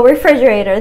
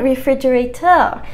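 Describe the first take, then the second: First: Said in the usual way. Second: "refrigerator" in a French accent, rising at the end; French-accented "refrigerator", last syllable lifted. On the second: Shown as a demonstration. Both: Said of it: "Just refrigerator with a French accent".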